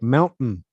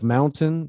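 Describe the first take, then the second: First: The t is replaced by a glottal stop. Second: The t is pronounced as a clear t. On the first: "The glottal stop is when we have the uh, that like mountain" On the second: "instead of mountain"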